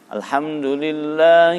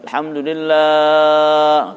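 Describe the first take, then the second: First: The long vowel is held briefly. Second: The long vowel is stretched far too long. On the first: The speaker calls it right. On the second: The speaker calls it wrong.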